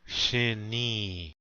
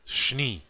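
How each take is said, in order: First: An 'i' vowel is heard between sh and n. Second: No vowel is heard between sh and n. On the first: The speaker calls it wrong. "or shini" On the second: The speaker calls it right. "Make that sh run into the n sound"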